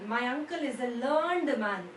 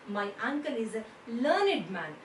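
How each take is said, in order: First: Learned ends in a t sound, one syllable. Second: Learned ends in an id sound, two syllables. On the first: The speaker calls it wrong. "No, it is not correct" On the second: The speaker calls it right. "it goes with the pronunciation of learned"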